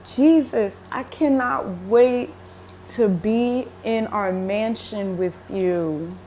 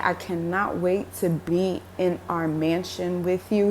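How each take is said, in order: First: Slow, yearning, hopeful; longing quote to Jesus. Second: Said in the usual way. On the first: Retold or imitated. Speaker to Jesus, slow and yearning. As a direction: tell him you can't wait, slowly. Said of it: "and I was like". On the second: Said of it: "as I'm saying".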